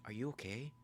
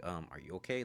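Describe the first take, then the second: First: High, soft imitated girl's question; lightly voiced higher, softer asking; Nikki. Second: Said in the usual way. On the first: Nikki checks on Bear, lightly imitated high voice. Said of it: "she's like". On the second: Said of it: "And then Bear's like".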